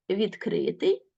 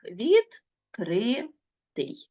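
First: Said in the usual way. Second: Відкритий drawn out, each syllable set apart. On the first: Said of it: "ще і ось так". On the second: Shown as a demonstration. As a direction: split Відкритий slowly into syllables. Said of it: "на склади можна ділити ще і ось так". (Відкритий повільно, по складах)

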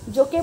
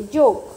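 First: जोके in two syllables, ending in "ay"; final E wrongly sounded. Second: जोक in one syllable, ending on k; silent final E. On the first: Teacher showing the mistake, final e voiced in जोके. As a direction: add a voiced e after the k in जोके. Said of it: "जोके बोलते हैं?". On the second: Teacher correcting the class, जोक with silent e. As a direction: stop जोक at the k, said firmly and louder. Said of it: "नहीं बोलते". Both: Shown as a demonstration.

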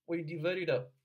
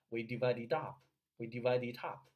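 First: "We divide it up" higher and louder, ending on a very short "up"; short crisp vowel. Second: "we divide it up" with "up" opened into a long "ahp", like "top"; common vowel mistake. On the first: Coach showing the vowels, short crisp vowel. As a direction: cut the vowel of "up" short, keep "divide" full. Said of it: "这个啊特别的短". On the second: Coach mimicking many learners, common vowel mistake. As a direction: say "up" with a wide "ah" and a released p. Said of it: "很多人读为". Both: Shown as a demonstration.

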